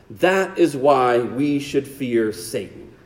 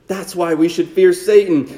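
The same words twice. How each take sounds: First: "That is why we should fear Satan" dropped low, soft and slow. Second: Said in the usual way. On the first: Shown as a demonstration. Preacher to congregation, warning about Satan, low and slow. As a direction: let it sink in quietly and slowly.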